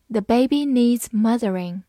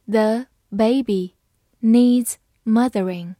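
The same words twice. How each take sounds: First: Said in the usual way. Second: Slow, phrase by phrase; slow reading. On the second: Shown as a demonstration. Teacher reading slowly for students to follow. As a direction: read it slowly for the learners. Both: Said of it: "好，慢慢来读。".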